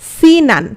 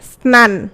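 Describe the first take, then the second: First: An i vowel is inserted between s and n. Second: It starts with an s-n cluster, no vowel between. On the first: "একটা ই ধ্বনি আসছে" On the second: "এখানে কি কোনো ই ধ্বনি আছে দেখো তো স্নানের মধ্যে? ... নাই।"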